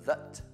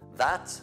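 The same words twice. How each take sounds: First: The vowel is reduced to a weak uh sound. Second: The vowel is a full, clear a sound. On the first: "But if it's in the middle, it's" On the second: "if it's at the beginning of the sentence"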